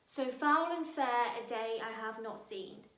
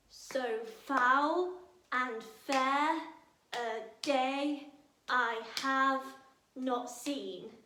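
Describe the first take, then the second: First: Said in the usual way. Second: Very slow, "So foul and fair" with every second syllable hit; stress every other syllable. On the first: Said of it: "Macbeth's first line". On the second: Shown as a demonstration. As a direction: beat it out: so FOUL and FAIR a DAY I HAVE not SEEN. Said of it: "stress every other syllable".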